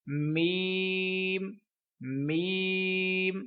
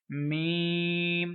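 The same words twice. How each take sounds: First: मीम slow and clear, not nasal; correct meem. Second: मीम slow with sound through the nose; nasal wrong meem. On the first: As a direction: draw out a clean मीम. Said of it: "ये दुरुस्त तरीका होगा". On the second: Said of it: "मीम गलत है". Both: Shown as a demonstration.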